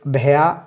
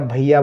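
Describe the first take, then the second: First: The first vowel sounds like 'ay' in 'say'. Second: The first vowel sounds like 'eye'. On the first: "ए या आई दोनों तरीके से बोल सकते हो" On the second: "ए या आई दोनों तरीके से बोल सकते हो"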